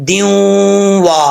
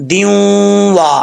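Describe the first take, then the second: The two takes are said the same way.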